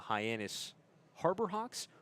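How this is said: There is a break right after Hyannis. The place is Hyannis and the team is the Harbor Hawks. "the space occurs between Hyannis and Harbor Hawks"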